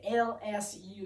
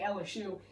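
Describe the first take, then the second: First: The three letters are said separately and distinctly. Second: The three letters are run together as one word. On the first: The speaker calls it wrong. "They don't say L S U" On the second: The speaker calls it right. "in one nice little mushed word together"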